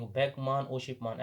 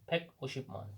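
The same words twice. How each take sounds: First: फेक मान, ओशिप मान said as two separate names with a break; wrong split reading. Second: फेक ओशिप मान said as one joined number name, no break between parts; teacher shows the right reading, फेक ओशिप मान run together. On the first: Teacher warns students against the split reading, two separate parts. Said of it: "ऐसे नहीं". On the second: Teacher shows students the correct reading, joined smoothly. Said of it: "ऐसे पढ़ेंगे इसको". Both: Shown as a demonstration.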